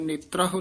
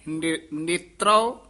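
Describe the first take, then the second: First: An h sound comes before the final vowel. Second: No h sound comes before the final vowel. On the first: The speaker calls it wrong. "ਹਾਹਾ ਨੀ ਹੈ, ਨੇਤਰਹੁ ਨੀ" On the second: The speaker calls it right. "ਹਾਹਾ ਨੀ ਹੈ"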